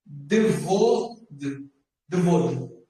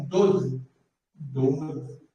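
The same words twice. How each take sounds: First: Devod with the vav sounded as a v; rule-based misreading. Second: Doze said as Hebrew "dod", only the o sounded; silent vav reading. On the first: Teacher showing what the plain rule would give, Devod with a sounded v. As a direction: Devod read in two syllables, "de-VOD". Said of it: "seria assim". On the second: Teacher reading the written word by the exception, Doze said "dod". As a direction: Doze as one syllable with no v sound. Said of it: "Tá escrito então o quê?". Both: Shown as a demonstration.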